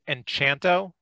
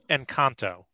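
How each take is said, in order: First: The consonant after 'en' sounds like 'ch'. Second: The consonant after 'en' sounds like 'k'. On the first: The speaker calls it wrong. "there's no H after the C" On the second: The speaker calls it right. "I believe it's Encanto"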